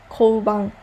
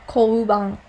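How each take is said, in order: The two takes are said the same way.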